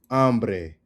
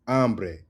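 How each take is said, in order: Both takes have the same delivery.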